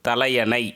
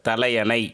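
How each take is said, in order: The two takes are said the same way.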